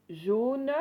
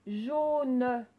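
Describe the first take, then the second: First: Said in the usual way. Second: "Jaune" loud, its O held long; stretched O. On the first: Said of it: "où vous entendez le son O". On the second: Shown as a demonstration. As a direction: draw out and press the O of "Jaune". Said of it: "on l'entendait dans la première syllabe". (« Jaune » fort, le O bien allongé)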